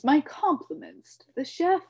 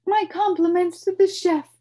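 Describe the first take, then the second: First: High, loud, ending up on "chef"; pompous compliment rising. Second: High, loud, falling flourish; pompous compliment. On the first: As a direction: lift "chef" like a grand toast. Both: A narrator's reading. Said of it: "he announced to no one".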